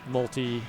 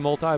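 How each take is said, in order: First: The final vowel of multi sounds like 'ee'. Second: The final vowel of multi sounds like 'eye'. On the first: "I'm like, multi" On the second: "you say multi ball, which is, is more correct"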